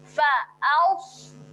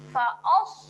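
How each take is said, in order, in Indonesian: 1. Vokal setelah hamzah itu terbuka dan tipis. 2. Vokal setelah hamzah itu membulat dan tebal. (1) "Nganga dulu kemudian baru kita muncung sedikit" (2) "Dia dah muncung siap-siap. ... Os adalah bunyi yang kurang tepat"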